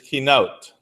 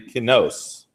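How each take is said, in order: First: The word ends with a t sound. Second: The word ends with an s sound. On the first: "the word for lamentation is kinot" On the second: "some of those guys say kinos. Those guys in the north"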